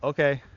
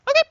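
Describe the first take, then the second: First: It is said in a plain, everyday voice. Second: It is said in a lively, excited voice.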